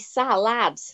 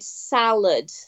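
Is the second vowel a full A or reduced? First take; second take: Full A; Reduced. First: Both vowels are full short A sounds. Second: The second vowel is a weak reduced sound.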